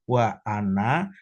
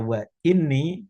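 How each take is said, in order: First: The second word begins with an 'a' vowel. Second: The second word begins with an 'i' vowel. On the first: It is joined to the blessing mentioned before. "ini bisa dibaca bi fathi wa anna" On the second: It starts a new sentence. "Wal kasri, dan ini bisa dibaca wa ini istinafan"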